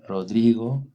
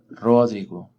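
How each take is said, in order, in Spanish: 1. El acento está en la sílaba del medio. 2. El acento está en la primera sílaba. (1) "La penúltima" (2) "O la antepenúltima"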